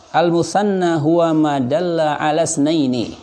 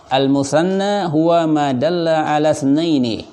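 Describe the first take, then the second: Both takes have the same delivery.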